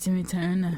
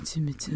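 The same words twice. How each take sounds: First: The voice is pitched higher. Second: The voice is pitched deeper.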